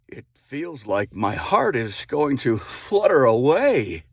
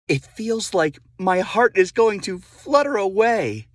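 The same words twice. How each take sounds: First: It is said in a gruff, haggard voice. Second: It is said in a plain, ungruff voice.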